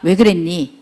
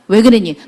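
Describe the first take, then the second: First: It is said in a gentle, caring tone. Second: It is said in a harsh, scolding tone.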